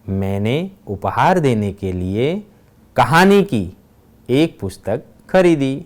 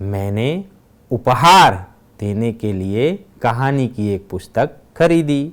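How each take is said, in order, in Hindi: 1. बल 'कहानी' शब्द पर पड़ता है। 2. बल 'उपहार' शब्द पर पड़ता है। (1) "तीसरे वाक्य में कहानी शब्द पर भार दिया गया है" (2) "दूसरे वाक्य में उपहार शब्द पर भार दिया गया है"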